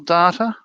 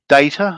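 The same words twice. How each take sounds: First: It is said with an Australian pronunciation. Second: It is said with a non-Australian pronunciation.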